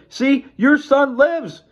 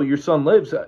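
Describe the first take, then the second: First: It is said excitedly, as an exclamation. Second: It is said flatly, as plain information.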